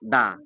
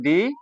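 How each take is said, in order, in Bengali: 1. শব্দটি 'uh' স্বরধ্বনি দিয়ে শেষ হয়। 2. শব্দটি 'ee' স্বরধ্বনি দিয়ে শেষ হয়। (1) "তখন আমাদেরকে উচ্চারণ করতে হবে দা" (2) "তখন আমাদেরকে উচ্চারণ করতে হবে দি"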